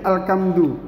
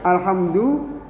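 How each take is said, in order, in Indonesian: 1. Huruf tengahnya bunyi k yang keras. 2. Huruf tengahnya bunyi h yang berdesah.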